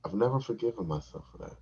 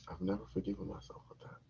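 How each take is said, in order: First: Said in the usual way. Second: Much softer, faster echo; muttered repeat. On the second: Shown as a demonstration. Repeating his regret, soft quick mutter. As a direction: mutter it again to yourself.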